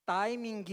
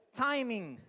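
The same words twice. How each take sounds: First: "timing" said Brazilian style, final G sounded; Brazilian-style pronunciation. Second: "Timing" with English T and silent final G; English pronunciation. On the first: Pastor showing the common Brazilian mispronunciation, louder. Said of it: "em vez de falar algo como". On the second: Pastor leading the congregation in the English way. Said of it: "A palavra inteira". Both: Shown as a demonstration.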